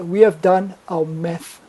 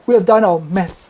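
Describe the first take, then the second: First: It is said calmly and steadily, sounding confident. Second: It is said hurriedly and unsteadily, sounding nervous. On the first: The speaker conveys high status and power. The speaker calls it right. "if he had kept his head still and said" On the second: The speaker betrays anxiety and lower status. The speaker calls it wrong. "that would be more powerful than saying"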